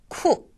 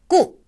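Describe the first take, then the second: First: The k is aspirated, with a puff of air. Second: The k is tense, without a puff of air. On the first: This is how it sounds at the start of a word. "쿠는 첫음에 왔을 때는" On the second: This is how it sounds inside a word. "첫음이 아닐 때는 꾸"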